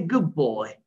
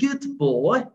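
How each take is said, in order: First: The d of good turns into a b sound. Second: The word good ends with a clear d sound. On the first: The speaker calls it right. "this dot would turn to be ba" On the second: The speaker calls it wrong. "instead of saying good boy"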